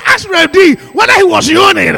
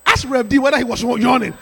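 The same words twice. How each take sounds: First: Much louder and higher, shouted out; preacher shouting the repeat to the congregation. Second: Said in the usual way. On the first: Shown as a demonstration. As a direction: call it out again so the back rows hear. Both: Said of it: "I said".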